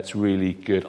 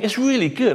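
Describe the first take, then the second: First: It is said flatly, without excitement. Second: It is said with lively excitement. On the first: The speaker calls it wrong. "we kind of sung it from over here going" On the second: The speaker calls it right. "And we should be saying"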